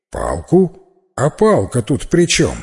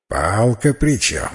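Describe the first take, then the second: First: Baffled question, livelier on the second phrase; puzzled youth. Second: Slow, measured repeat of the question; slow echo. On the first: Youth asks old man what the stick matters, puzzled. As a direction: ask it in brisk bewilderment. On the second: Old man repeats youth's question, slowly and deliberately. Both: A narrator's reading.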